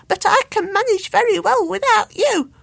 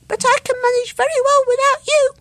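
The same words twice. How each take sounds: First: High, loud bird laughing at him; mock him with a laugh; giggling cheeky bird; laughing taunt. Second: Very high, loud parroting squeak; piping echo bird; squeaky echo voice. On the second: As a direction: mimic the taunt as a tiny bird. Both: A narrator's reading.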